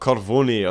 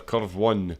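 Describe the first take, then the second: First: It is said as one Italian-sounding word. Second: It is said as two English words.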